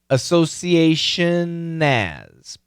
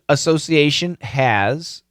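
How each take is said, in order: First: The H is dropped and the words link. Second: The H at the start of has is pronounced. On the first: "We have to link" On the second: "Perfect pronunciation"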